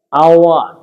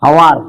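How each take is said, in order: First: আওয়ার with a silent h, starting on the vowel; the right way, the h dropped; correct pronunciation. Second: Hawar, said with a clear h at the start; the mistaken hawar with an audible h; wrong pronunciation. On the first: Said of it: "not a হাওয়ার". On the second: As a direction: say হাওয়ার with the h sounded, as the wrong way. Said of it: "হাওয়ার নয় এটা". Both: Shown as a demonstration.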